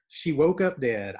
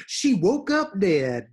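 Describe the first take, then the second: First: Said in the usual way. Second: Higher, louder, slow dad punchline; imitating dad. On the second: Imitating her dad's deadpan gossip line, slow and louder. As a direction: drawl it out like dad's dramatic gossip. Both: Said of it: "That's my favorite".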